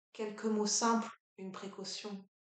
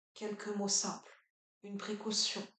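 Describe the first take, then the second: Both takes have the same delivery.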